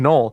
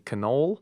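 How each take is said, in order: First: The vowels in the word are dropped. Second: All the vowels in the word are pronounced.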